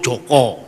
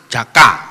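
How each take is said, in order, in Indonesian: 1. Vokal nama ini berbunyi 'o' yang membulat. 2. Vokal nama ini berbunyi 'a' yang terbuka. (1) "Kalau orang Solo" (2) "gantung itu orang mana? Banyumas"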